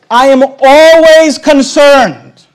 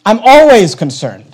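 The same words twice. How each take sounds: First: ALWAYS drawn out slow and higher; emphatic declaration. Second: Said in the usual way. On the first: Real, not acted. Preacher warning the congregation, emphatic stress on ALWAYS. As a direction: declare it slowly, leaning long on ALWAYS. Preacher hammers home his concern.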